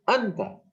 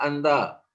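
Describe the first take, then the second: First: The stress is on the first syllable. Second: The stress is on the second syllable. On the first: The speaker calls it right. "Aksentuasi di huruf pertama apabila tidak ada huruf mad" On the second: The speaker calls it wrong. "Jangan dibaca anta"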